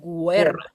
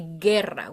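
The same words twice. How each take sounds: First: The u after the g is pronounced. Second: The u after the g is silent. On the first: The speaker calls it wrong. "We don't say" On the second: The speaker calls it right. "but we say guerra"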